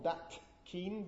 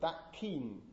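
First: The final t of 'that' is kept as t. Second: The final t of 'that' becomes a k. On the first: The speaker calls it wrong. "Not that keen" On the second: The speaker calls it right. "but that keen. So two velar consonants"

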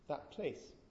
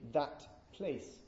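First: The word 'that' ends in a p. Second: The word 'that' ends in a clear t. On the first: "if you do this fairly quickly" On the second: "if I'm very careful"

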